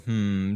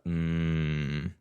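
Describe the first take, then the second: First: The hum is on a higher pitch. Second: The hum is half a step lower. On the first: The listener is mildly doubtful. "the the hmm turned into a mm" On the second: The listener is displeased. "I tried to go down half a step to show displeasure"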